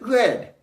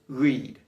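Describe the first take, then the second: First: It sounds like the colour word red. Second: It does not sound like the colour red. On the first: The action happened in the past. "if the context of the sentence is in the past, we would pronounce it read, just like the color" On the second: The action is not in the past. "If the context is not the past, then it's read"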